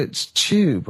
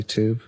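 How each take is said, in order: First: "tube" said the British way, as "chyoob"; British "tube", starting like "chew"; British pronunciation. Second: "tube" said the American way, as "toob"; American pronunciation. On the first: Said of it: "And they go". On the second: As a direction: say "tube" with a plain t and oo, no y glide. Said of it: "And I went, I say". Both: Retold or imitated.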